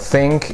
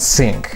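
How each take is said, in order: First: The th is a plain English th sound. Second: The th is replaced in a Russian accent. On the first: "the T H in this or think" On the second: "turning the T H ... into this and think"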